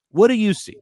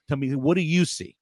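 First: Higher and louder, pressing; emphatic repeat. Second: Said in the usual way. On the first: Real, not acted. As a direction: push the question hard.

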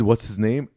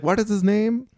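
First: Said in the usual way. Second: Much higher doctor voice asking the name; high put-on doctor voice; imitating the doctor. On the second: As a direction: raise the pitch into the doctor's voice. Doctor voice again.

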